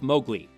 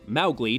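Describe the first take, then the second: First: The name is said the film-adaptation way. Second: The name is said the original-author way. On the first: This is how the animated film says it. "Disney's pronunciation" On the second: This is how the original author says it.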